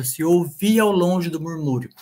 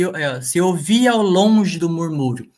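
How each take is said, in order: First: Said in the usual way. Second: Verse read slowly, joining vowels across words in "se eu via ao longe"; careful scansion of the verse line. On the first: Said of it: "fico bem perto". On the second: Shown as a demonstration. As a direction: read it out slowly, marking each poetic syllable. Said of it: "fica bem claro".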